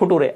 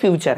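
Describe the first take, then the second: First: It is read letter by letter with a 't' sound. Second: It is said as 'fyoo-cher' with a 'ch' sound. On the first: It follows the written letters. The speaker calls it wrong. "नटूरे फुटूरे नहीं है ये सब" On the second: It follows the spoken sound. The speaker calls it right. "ये फ्यूचर है"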